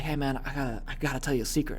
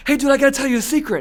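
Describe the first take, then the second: First: Hushed secret. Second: Much higher and louder, called across the room; calling out. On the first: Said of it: "then you whisper". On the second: Kid calling a secret across the room, loud. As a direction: announce the secret from ten feet away. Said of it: "from ten feet away". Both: Retold or imitated.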